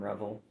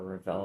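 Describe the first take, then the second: First: "Revel" with the stress on the first syllable; first pronunciation of Revel. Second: "Revell" with the stress on the second syllable; alternative pronunciation of Revell. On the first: Reseller unsure how people say the brand, "Revel" stressed up front. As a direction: say "Revel" like the word revel, REV-ul. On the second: Reseller offering another way to say the brand, "Revell" stressed at the end. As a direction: say "Revell" as ruh-VELL. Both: Shown as a demonstration. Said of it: "not sure how people say that".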